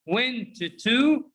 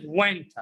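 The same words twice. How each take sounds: First: "went to" with a drawn-out "too"; slow, two-word "went to"; unreduced citation form. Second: "went" blended into "wenta"; one word, short "tuh" ending on "went"; reduced pronunciation. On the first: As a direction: keep the full vowel in "went to". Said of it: "went to is pronounced went". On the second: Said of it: "is pronounced". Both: Shown as a demonstration.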